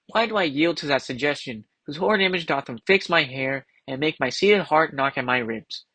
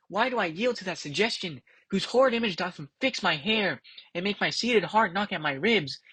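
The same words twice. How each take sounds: First: Said in the usual way. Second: Softer and higher, troubled musing; hushed soliloquy. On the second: Acted. Macbeth frightened by his own thought, quiet troubled recital. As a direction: murmur the lines as a shaken Macbeth.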